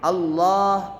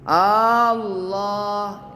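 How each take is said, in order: First: The first vowel is kept short. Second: The first vowel is drawn out long. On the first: The speaker calls it right. "Dia tasydid" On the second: The speaker calls it wrong. "huruf hamzahnya tidak boleh dibaca panjang ... nggak boleh begitu"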